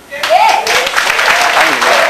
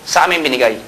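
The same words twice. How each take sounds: First: "Sa amin binigay" stretched slow and higher, each word weighted; emphatic slow repeat. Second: Said in the usual way. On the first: Shown as a demonstration. Speaker announcing his company won the deal, slow high emphatic repeat. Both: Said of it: "repeated for emphasis".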